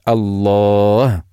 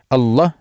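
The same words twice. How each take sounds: First: The vowel before the final h is long. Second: The vowel before the final h is short. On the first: The speaker calls it right. "А должны говорить" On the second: The speaker calls it wrong. "то они не удлиняют, то это грех"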